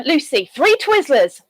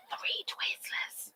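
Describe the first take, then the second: First: Said in the usual way. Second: Breathy whispered repeat of the count. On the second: Real, not acted. Whispering the sweet count to the chat. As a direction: whisper it as a secret.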